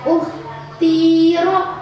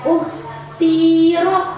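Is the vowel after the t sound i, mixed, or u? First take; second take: i; i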